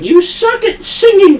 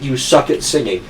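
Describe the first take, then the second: First: High, mocking nag about her singing; mocking manager. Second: Said in the usual way. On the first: Manager sneering at the girl's singing, mock high voice. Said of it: "she'd be like". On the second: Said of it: "Just outright".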